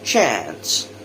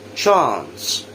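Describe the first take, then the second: First: American accent, with a flatter 'eh'-like vowel. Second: British accent, with an open 'ah' vowel. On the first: "the American later" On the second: "the British version first"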